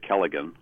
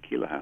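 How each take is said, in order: First: The middle consonant is a hard G sound. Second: The middle consonant is a soft H sound. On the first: The speaker calls it wrong. "most people say Kelligan" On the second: The speaker calls it right. "You said it properly with the Keelahan"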